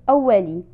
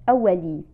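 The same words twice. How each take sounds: No difference in how they are said.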